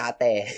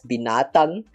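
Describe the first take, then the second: First: The word is clipped to one Kelantan-style syllable. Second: The full word is said in standard Malay. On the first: "in Kelantan's way of pronouncing it, they just call it nate" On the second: "there's a word which uh is read as binatang"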